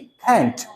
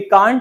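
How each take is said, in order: First: The vowel is a flat 'a' as in cat. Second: The vowel is a broad 'ah' as in father. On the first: "American बोलेंगे कैंट" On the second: "British में बोलेंगे कांट"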